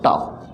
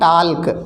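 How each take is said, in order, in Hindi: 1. इस शब्द में L की ध्वनि साइलेंट होती है। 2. इस शब्द में L की ध्वनि बोली जाती है। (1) "एल साइलेंट होता है, एल नहीं बोला जाता, टॉक बोलते हैं उसे" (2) "कुछ लोग कहते हैं टाल्क"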